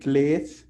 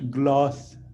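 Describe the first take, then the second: First: The vowel is a long 'ay' sound. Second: The vowel is a short 'o' sound. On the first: This is how the speaker says it. "I pronounce as glaze" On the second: This is how the original creator says it. "he pronounced it gloss"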